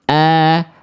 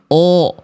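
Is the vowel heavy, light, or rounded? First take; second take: light; rounded. First: A pure open a with the tongue root lowered. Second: A deliberately rounded o with pursed lips. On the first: "vokal A-nya murni karena nggak ada kehalang bunyinya oleh pangkal lidah" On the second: "Bukan O, O, O, sengaja di O kan, tidak"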